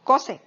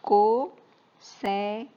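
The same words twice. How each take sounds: First: Said in the usual way. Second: "cosec" drawn out in pieces, co... se... c; syllable-by-syllable pronunciation. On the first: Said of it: "તેનો ઉચ્ચાર". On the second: Shown as a demonstration. Teacher writing out the pronunciation for pupils, "cosec" broken into slow sounds. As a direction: say "cosec" slowly, pausing between co, se and the final k. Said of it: "લખી પણ લઈએ તેનો ઉચ્ચાર".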